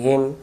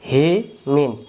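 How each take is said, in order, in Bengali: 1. শব্দটি 'm' দিয়ে শেষ হয়, কোনো 'n' নেই। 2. শব্দটির শেষে একটি যোগ হওয়া 'n' ধ্বনি আছে। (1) "দম ফেলিলে বাদ দিবেন" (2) "এখানে দম ফেলার জায়গা নাই"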